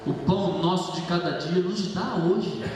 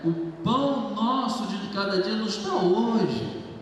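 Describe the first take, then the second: First: It is said as a grateful statement. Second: It is said as a pleading request. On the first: The speaker acknowledges that bread is given daily. "Olha a outra forma de falar a mesma frase" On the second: The speaker is asking to be given bread. "Normalmente nós falamos e lemos aqui"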